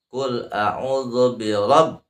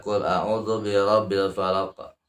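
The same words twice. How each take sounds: First: RABB chanted slowly with the b held; held tasydid. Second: "rabbil" passed over without holding the b; unheld tasydid. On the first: Teacher demonstrates holding the tasydid, slow chant on RABB. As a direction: press and hold the end of "rabb". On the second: Teacher warns against this reading, "rabbil" left unheld. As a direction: read it plainly, no press on "rabbil". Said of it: "jangan dibaca". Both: Shown as a demonstration.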